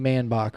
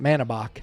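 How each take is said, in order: First: The name is said with two syllables. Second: The name is said with three syllables. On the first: "The E will be silent" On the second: "or is it Manabach?"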